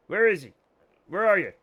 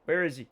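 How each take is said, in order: First: Louder call for the dog on where; louder searching call. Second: Said in the usual way. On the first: Real, not acted. Looking for the dog.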